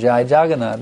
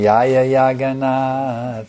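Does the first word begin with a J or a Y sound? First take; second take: J; Y. First: The first word begins with a J sound. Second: The first word begins with a Y sound.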